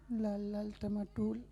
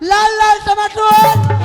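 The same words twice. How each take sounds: First: It is said fairly softly. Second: It is said loudly.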